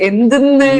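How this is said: The word is said with strong force. This is how people speak in one northern region. "നല്ല അത്യാവശ്യം നല്ലൊരു pressure കൊടുത്തിട്ടാണ്"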